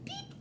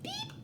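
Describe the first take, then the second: First: Said in the usual way. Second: Plain. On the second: Shown as a demonstration. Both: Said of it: "do they maybe say beep".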